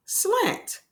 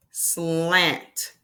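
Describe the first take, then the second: First: "Slant" said high and clear. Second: Said in the usual way. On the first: Shown as a demonstration. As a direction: announce "Slant" brightly. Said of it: "repeats word clearly". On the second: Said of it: "sounding out then word".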